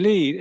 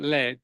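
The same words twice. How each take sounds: First: The vowel is long, like 'need'. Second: The vowel is short, like 'bed'. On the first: It is read as the verb meaning to guide. The speaker calls it wrong. "L E E D" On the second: It names the metal. The speaker calls it right. "in the context of materials, I was talking about lead"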